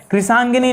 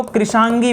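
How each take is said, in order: First: कृशांगिनी with an extra "ni" at the end; the mistaken long form कृशांगिनी; wrong word form. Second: कृशांगी ending straight on a long "gee"; the short form कृशांगी, "kri-shaan-gee"; correct word form. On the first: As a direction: say कृशांगिनी, ending "-gi-ni". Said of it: "कृशांगिनी नहीं". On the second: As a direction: say कृशांगी with no "ni" after "gi". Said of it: "कृशांगी पढ़ेंगे". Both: Shown as a demonstration.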